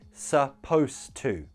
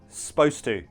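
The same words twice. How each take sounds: First: Supposed to is said fully and carefully. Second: Supposed to is said in a casual reduced form. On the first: "Just make sure your pronunciation matches mine" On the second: "casually, naturally, we usually just pronounce this like"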